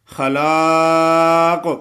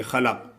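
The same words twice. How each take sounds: First: خلاق with a long drawn ا after ل; long laa. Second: خلق clipped, no long ا; wrong short vowel. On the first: Teacher models the correct long خلاق. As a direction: stretch the لا in خلاق. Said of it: "لام الف لا ہے". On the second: Teacher imitating the wrong short reading. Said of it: "خلق نہیں پڑھیں گے". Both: Shown as a demonstration.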